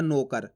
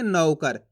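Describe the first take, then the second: First: नौकर said as "no-kar", falling; pure o in place of au in नौकर; wrong o vowel. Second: नौकर with open au in नौ, falling; stressed au. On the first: Teacher showing the mistaken reading, o for au. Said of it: "ओ की मात्रा का उच्चारण हो जाएगा". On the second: Teacher giving learners the correct reading, au stressed. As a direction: lean on the au of नौकर, "nau-kar". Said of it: "जोर लगाएंगे". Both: Shown as a demonstration.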